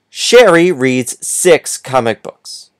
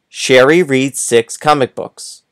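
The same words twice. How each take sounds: First: It is read at a slower pace. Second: It is read at a faster pace.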